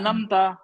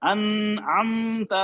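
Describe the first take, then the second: First: The word is said quickly, run together. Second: A sound in the word is drawn out long. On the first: "जल्दी में डाल दिया" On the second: "अब खींच दिया"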